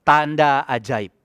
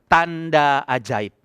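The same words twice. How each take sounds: First: Slow, deliberate declaration of the phrase. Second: "Tanda ajaib" drawn out, even slower; very slow declaration. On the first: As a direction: lay out "Tanda ajaib" word by word, slowly. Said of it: "berkata satu hal ini". (ucapkan "Tanda ajaib" dengan pelan dan mantap) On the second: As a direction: stretch out "Tanda ajaib" like a solemn proclamation. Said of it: "Ngomong itu aja". ("Tanda ajaib" diucapkan sangat pelan dan khidmat) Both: Shown as a demonstration.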